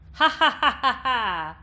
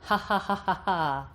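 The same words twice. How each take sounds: First: The voice has a bright, piercing twang. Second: The voice has no bright twang. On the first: "And with twang" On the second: "without and then with twang"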